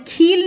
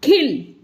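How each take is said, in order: First: खील said with a long, drawn ee; long ee, wrong way. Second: खिल said with a quick short i; short i, right way. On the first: Teacher demonstrating the wrong long vowel to children. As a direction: hold the ee in खील to show what not to say. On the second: Teacher showing the correct short vowel. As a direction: keep the i in खिल short and light. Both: Shown as a demonstration. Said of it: "खील नहीं बोलना है".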